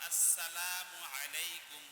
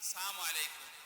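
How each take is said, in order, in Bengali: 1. সালামটি পূর্ণ 'as' ধ্বনি দিয়ে শুরু হয়। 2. সালামটি শুরুর 'as' ধ্বনি ছাড়া শুরু হয়। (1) "সালাম হবে" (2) "আমরা সালাম দিই"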